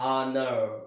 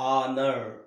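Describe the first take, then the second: First: The word begins directly with a vowel sound. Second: The same.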